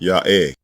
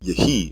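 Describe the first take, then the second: First: The first vowel is a long 'ah'. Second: The first vowel is a short 'eh'. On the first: This is the original pronunciation. The speaker calls it right. "The original pronunciation is simply ya'eh" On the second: This is the later traditional pronunciation. The speaker calls it wrong. "pronounced yehi in Masoretic Hebrew"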